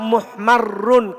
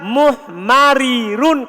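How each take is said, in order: First: The two r sounds merge into one doubled r. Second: The two r sounds are split by an i vowel. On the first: "Tetap muhmarrun" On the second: "kalau dilepas"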